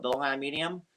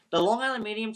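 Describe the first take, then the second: First: Said in the usual way. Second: The Long Island Medium said higher and louder, stressing Island; emphatic repeat. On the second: Shown as a demonstration. Insisting to friends about the show, emphatic repeat. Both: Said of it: "repeats the name".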